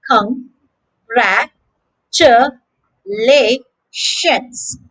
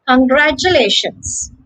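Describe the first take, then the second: First: Congratulations in five slow, separated syllables; long gaps between each syllable of Congratulations. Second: Said in the usual way. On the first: Shown as a demonstration. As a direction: count out con, gra, chu, la, tions. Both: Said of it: "a total of five syllables".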